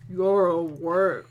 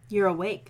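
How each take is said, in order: First: It is said in a put-on deep voice. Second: It is said in a normal voice.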